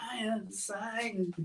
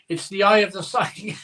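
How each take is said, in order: First: Softly laughing through it. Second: Said in the usual way. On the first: Real, not acted. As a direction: say it while laughing quietly. Repeats the phrase laughing.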